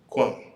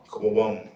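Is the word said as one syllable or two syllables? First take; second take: one; two. First: The word is said quickly as one syllable. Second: The word is said fully in two syllables. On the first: "Just quick. It's just a quicker way to say it" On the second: "We're really saying Quawam"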